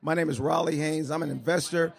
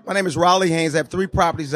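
First: Much softer, barely carrying; mumbled softly to the room; too quiet. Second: Louder. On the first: Investor introduces himself too softly to crowd. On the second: Host demands louder, investor repeats name louder. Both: Real, not acted. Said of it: "A lot louder".

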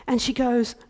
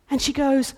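Both takes have the same delivery.

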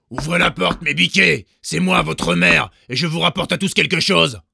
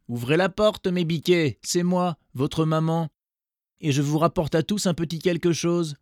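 First: Loud, high fake mother call; the wolf badly faking the mother goat; wolf posing as mother. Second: High, gentler coaxing call; wolf with softened voice. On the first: Wolf shouting at the door, pretending to be the mother. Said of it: "à sa grosse voix rauque". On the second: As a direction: sweet-talk them to open up. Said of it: "sa voix devint en effet plus douce". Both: A narrator's reading.

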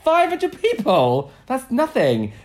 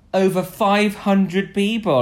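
First: Very high, loud disbelief; slow, squawked mock outrage; incredulous scoff. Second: Slow, loud, higher proclamation; mock-important boast; mock-impressive announcement. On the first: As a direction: repeat the figure as if absurdly small. Retells own scornful reaction. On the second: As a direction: announce the figure grandly, spacing it out. Retells proud charity claim.

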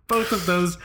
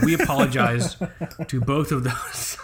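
First: "both" said higher and louder; stress on both. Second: Laughing. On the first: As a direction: hit the word "both". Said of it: "repeats with stress". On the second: Laughing through apology. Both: Real, not acted.

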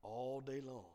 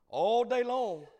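First: Said in the usual way. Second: Loud, high, drawn-out cry; impassioned preacher's cry. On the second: Real, not acted. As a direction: belt it out at the peak of the story. Repeats the phrase at sermon climax.

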